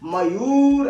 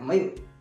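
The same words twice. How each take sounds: First: The u vowel is held long. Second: The u vowel is kept short. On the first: The speaker calls it wrong. "मयूर ऐसे नहीं कहते हैं" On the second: The speaker calls it right. "मयूर ऐसे बोलते हैं"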